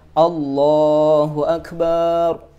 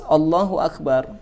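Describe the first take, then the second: First: The vowel in the last syllable is drawn out. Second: The vowel in the last syllable is short. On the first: It calls God a drum. The speaker calls it wrong. "ketika dia memanjangkan huruf ba" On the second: God is the greatest. The speaker calls it right. "yang artinya adalah Allah Subhanahu wa taala yang maha besar"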